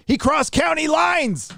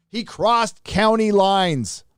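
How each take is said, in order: First: Dramatic slow emphasis. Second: Slow deliberate repeat. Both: Acted. Dramatic reread of donor message.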